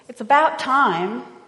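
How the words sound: It is said in an impatient, frustrated tone. The wait has gone on far too long. "Frustration, impatience, you've been waiting for something for a long time"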